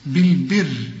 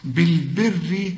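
First: بالبر stopped on a thin, silent ra; pausal reading. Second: بالبر read slowly as if joined, ending bilberi with a light kasra. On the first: Teacher showing how بالبر sounds at a stop. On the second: Teacher showing how بالبر sounds when continued. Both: Shown as a demonstration. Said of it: "شوف إذا وقفت وإذا وصلت".

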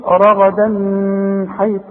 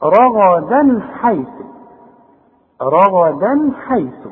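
First: رغدا حيث with the n held as a long hum; wrong nasal hum. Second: رغدا حيث slowly, a crisp n before the ḥa; clear noon, no ghunnah. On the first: Quran teacher warns against humming in رغدا حيث, buzzing nasal n. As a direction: drag a humming nnn before حيث. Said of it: "الزنة دي لا". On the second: Quran teacher shows izhar in رغدا حيث, no nasal hum. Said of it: "يبقى اذا مش هغن هنا". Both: Shown as a demonstration.

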